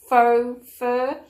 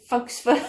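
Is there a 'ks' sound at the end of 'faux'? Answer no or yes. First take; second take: no; yes. First: 'Faux' ends in a plain 'oh' sound. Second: 'Faux' ends with a 'ks' sound. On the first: The speaker calls it right. "the correct way of saying it's faux fur" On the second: The speaker calls it wrong. "I think I called it folks fur"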